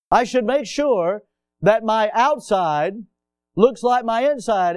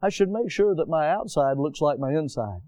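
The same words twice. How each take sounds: First: Louder, higher, slowed restatement; preaching emphasis. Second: Said in the usual way. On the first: Shown as a demonstration. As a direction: repeat it with full preaching force. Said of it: "repeated line, pressed". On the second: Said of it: "repeated line".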